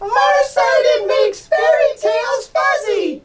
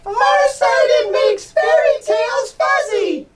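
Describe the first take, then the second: First: It is said in a squeaky mouse voice. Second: The same.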